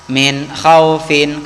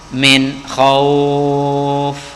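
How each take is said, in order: First: The phrase ends with a short final syllable. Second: The phrase ends on a consonant, ending dropped. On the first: The reading continues without stopping. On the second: The reading stops here.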